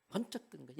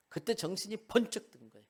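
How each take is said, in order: First: Soft echo. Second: Said in the usual way. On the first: A narrator's reading. Preacher echoing Peter's realization, much softer. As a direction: let it sink in quietly.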